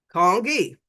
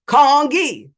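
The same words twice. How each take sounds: First: Said in the usual way. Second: Congee said louder and slower, KAHNG-kee. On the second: Retold or imitated. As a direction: spell out Congee loud and slow to a tourist. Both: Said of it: "saying the word louder and slower".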